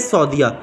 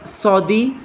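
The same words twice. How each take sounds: First: Saudiya with an added -ya; the mistaken form Saudiya; wrong "Saudiya". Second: Saudi, ending on -di; slow, careful Saudi; correct "Saudi". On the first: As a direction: tack -ya onto Saudi. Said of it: "ये गलत है". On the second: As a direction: say Saudi with no added -ya. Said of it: "अलबत्ता सऊदिया कोई लफ्ज़ नहीं है". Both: Shown as a demonstration.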